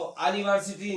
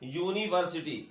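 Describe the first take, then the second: First: The word begins with a plain vowel sound. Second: The word begins with a 'yoo' sound. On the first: The speaker calls it wrong. "अनिवर्सिटी नहीं होती है" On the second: The speaker calls it right. "ये क्या होता है, यूनिवर्सिटी"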